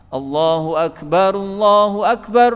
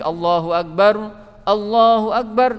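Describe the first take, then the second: First: Both phrases are joined in one breath. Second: The phrases are separated by a breath.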